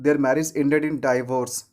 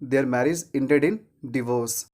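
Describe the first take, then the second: First: Divorce begins with a 'die' sound. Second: Divorce begins with a short 'di' sound. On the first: The speaker calls it wrong. "तो यहाँ पर ऐसे नहीं बोलना है" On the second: The speaker calls it right. "क्या बोलना है?"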